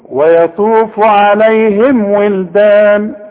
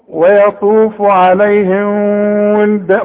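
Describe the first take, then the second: First: The m sound is fully pronounced with closed lips. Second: The m sound is blurred and hidden. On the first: The speaker calls it right. "اوعى تخفي" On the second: The speaker calls it wrong. "ممكن تقول كده، لا غلط"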